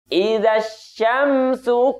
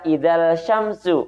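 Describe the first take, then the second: First: No l sound is pronounced before syamsu. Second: An l sound is pronounced before syamsu. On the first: The speaker calls it right. "melainkan idza syamsu kuwirat" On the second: The speaker calls it wrong. "Tidak dibaca idzal syamsu"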